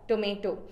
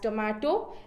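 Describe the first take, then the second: First: The middle vowel sounds like 'ay'. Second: The middle vowel sounds like 'ah'. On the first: This is the American pronunciation. "Americans pronounce it as tomato" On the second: This is the British pronunciation. "we pronounce it as tomato"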